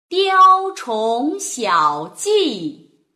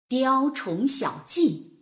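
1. 读得很慢，吐字非常清楚。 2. 读得快一些，感情很丰富。

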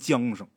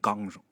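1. 第一个音节读作 'jiang'。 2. 第一个音节读作 'gang'。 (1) "这玩意儿你写出来是念丝浆，啊，是念缰绳" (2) "但是读出来就念钢绳"

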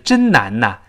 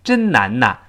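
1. 语气词连读成 'na'。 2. 语气词连读成 'na'。

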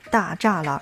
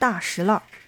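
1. 中间这个音节读 zha。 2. 中间这个音节读 shi。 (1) "大栅栏不念大栅栏" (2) "而是念作大石栏"

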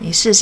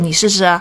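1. 这是用很温柔、很亲昵的语气说的。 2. 这是用很凶、很有威胁的语气说的。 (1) "我们是很亲密的讲" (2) "很威胁的语气，我们就会很凶的说"

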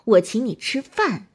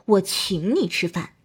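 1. 重音在“饭”上。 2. 重音在“请”上。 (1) "强调饭" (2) "突出请，意思是我出钱"

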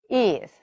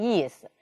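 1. 第一个音节的元音脱落了。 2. 第一个音节的元音完全保留。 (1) "这个一呢元音脱落了" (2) "意思呢是轻声，我们读成意思"

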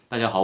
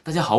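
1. 这句话说得很平淡，没有什么情绪。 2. 这句话说得情绪饱满，很有感染力。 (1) "你只要说清楚就OK 了。你比如说" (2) "如果换做一个比较特别有情绪的话"

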